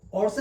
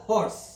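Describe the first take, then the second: First: "ഹോഴ്സ്" wrongly said without its H, as "orse"; dropped H. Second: "ഹോഴ്സ്" with the H clearly sounded. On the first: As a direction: start "ഹോഴ്സ്" straight on the vowel, no H. ("ഹോഴ്സ്" H ഇല്ലാതെ, "ഓഴ്സ്" എന്ന്) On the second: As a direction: begin "ഹോഴ്സ്" on an audible H breath. ("ഹോഴ്സ്" H ഉച്ചരിച്ച്) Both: Shown as a demonstration. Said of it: "H ഉച്ചരിക്കുന്നുണ്ട് അവിടെ".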